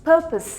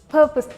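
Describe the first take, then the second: Both takes have the same delivery.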